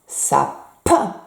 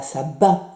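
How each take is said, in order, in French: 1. La consonne du milieu est un son P. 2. La consonne du milieu est un son B. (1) "Vous entendez P, P, sapin" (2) "C'est pas B, c'est pas sabin"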